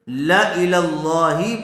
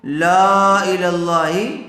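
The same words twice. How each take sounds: First: The long vowel after the first L is dropped. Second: The long vowel after the first L is kept. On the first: The speaker calls it right. "बल्कि ला इलल्लाही पढ़ा जाएगा" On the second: The speaker calls it wrong. "इसको ला इलल्लाही नहीं पढ़ा जाएगा"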